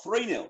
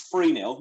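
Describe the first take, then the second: First: Said in the usual way. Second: "three" pronounced "free", with an F. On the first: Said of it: "not three nil". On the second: Shown as a demonstration. Host showing the local Luton way, "three" said as "free". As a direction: say "three nil" with an F for the TH. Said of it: "every T H to an F".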